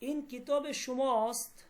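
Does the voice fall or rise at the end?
rises. The voice rises at the end. It is a question. "আমার বলার ভঙ্গিতে বোঝা যাচ্ছে আমি প্রশ্ন করতেছি"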